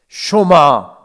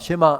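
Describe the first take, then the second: First: The first vowel sounds like 'o'. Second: The first vowel sounds like 'e'. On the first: This is the accurate pronunciation. The speaker calls it right. "정확한 발음은 쇼마입니다" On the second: This is how people usually say it. The speaker calls it wrong. "흔히 우리가 쉐마, 쉐마 이렇게 합니다만은"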